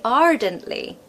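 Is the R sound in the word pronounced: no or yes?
yes. The R sound is pronounced after the first vowel. "If I had a different accent"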